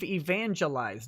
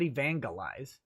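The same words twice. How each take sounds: First: The g is soft, like a j sound. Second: The g is hard, like in go. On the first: The speaker calls it right. "it's based off of evangelize" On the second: The speaker calls it wrong. "not evangelize"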